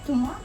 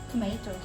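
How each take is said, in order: First: It is said the way Australians say it. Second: It is said the way some other countries say it. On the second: "Like in some countries"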